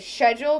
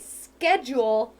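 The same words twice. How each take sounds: First: It is said with a British pronunciation. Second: It is said with an American pronunciation. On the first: "English people do, and they say" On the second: "in America, we say"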